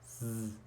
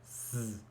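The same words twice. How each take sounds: First: The sound is a buzz with voice. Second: The sound is a buzz with voice.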